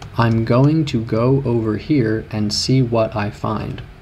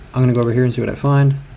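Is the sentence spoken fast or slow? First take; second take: slow; fast. First: It is spoken slowly with each word clear. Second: It is spoken quickly with words run together. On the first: "So I could say" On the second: "A native would say"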